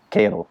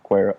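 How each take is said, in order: First: Quero said as KAY-tel, wrong; stumbling read of Quero as KAYtel; first try at the name. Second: Quero said KWEH-ro; corrected name. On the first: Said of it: "Quer-, Quer". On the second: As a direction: say Quero as KWEH-roh, carefully fixed. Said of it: "Sorry, Law". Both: Real, not acted.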